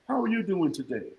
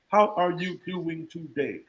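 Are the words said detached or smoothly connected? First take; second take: connected; detached. First: The words are said smoothly, flowing together. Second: The words are said separately and detached.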